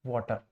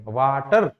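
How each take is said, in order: First: Said in the usual way. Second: वाटर with a full final R, voice rising at the end; louder, over-pronounced वाटर, the टर as strong as the वा; every sound equally strong. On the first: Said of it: "हमने लिखा वाटर". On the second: Shown as a demonstration. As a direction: give the R in वाटर full weight. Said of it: "R भी एकदम वैसे ही pronounce होगा".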